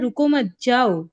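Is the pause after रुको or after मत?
after मत. The pause comes right after मत.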